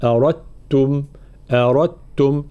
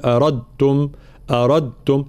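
First: أردتم as "arattum", d swallowed into a double t; full assimilation. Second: أردتم with a trace of d left before the t; incomplete assimilation. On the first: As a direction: merge the d of أردتم fully into the t. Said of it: "تدغم الدال في التاء". (أردتم بإدغام تام) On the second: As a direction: wrongly keep some d in أردتم. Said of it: "هذا إدغام ناقص". (أردتم بإدغام ناقص) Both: Shown as a demonstration.

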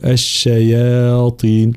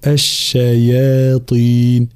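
First: الشياطين with the long ي vowel thickened toward the ط; wrong heavy madd. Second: الشياطين with the whole long ي vowel kept thin; the right way: الشياطين with a thin madd to the end; correct thin madd. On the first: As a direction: demo the mistake: الشياطين with half the madd made heavy. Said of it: "وهذا خطأ، فيقول". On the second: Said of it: "والصواب هو الشياطين هكذا". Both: Shown as a demonstration.

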